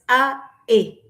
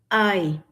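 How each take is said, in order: First: The two vowels are said apart with a break. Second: The two vowels glide together as one sound. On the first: The speaker calls it wrong. "no es a, e" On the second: The speaker calls it right. "es ae"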